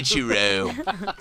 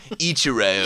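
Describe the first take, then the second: First: Slow drawn-out "Ichiro" as "Chu-ro"; mock Orlando accent. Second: Said in the usual way. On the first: Shown as a demonstration. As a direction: stretch "Ichiro" slowly in a put-on Orlando accent. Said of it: "Orlando accent pronounce it". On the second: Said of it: "Orlando accent".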